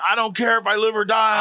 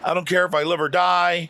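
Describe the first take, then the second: First: It is said in a frantic, agitated way. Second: It is said in a calm, casual way. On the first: The speaker calls it right. "spinning around, tapping his fucking head, saying" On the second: The speaker calls it wrong. "That's how you just said it right now"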